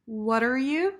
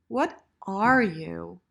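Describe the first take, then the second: First: "What are" run together as whudder, rising; linked "What are you". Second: Slow, separate "What", then loud full "are"; stressed "are". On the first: Teacher models short form, linked "What are". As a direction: smush "What are you?" into one questioning phrase. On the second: Teacher models full form, stressed "are". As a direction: pause after "What" and hit "are". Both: Shown as a demonstration.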